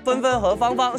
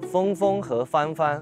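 First: It is spoken quickly, with syllables run together. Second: It is spoken slowly, one syllable at a time. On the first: The speaker calls it right. "加快" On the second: The speaker calls it wrong. "你这是一个字一个字的"

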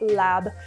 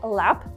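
First: The word ends with a b sound. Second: The word ends with a clear p sound. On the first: "sometimes you'll hear me say lab" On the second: "sometimes you'll hear me say lap"

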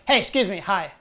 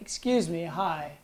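First: It is said with strong, confident intensity. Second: It is said politely with low intensity.

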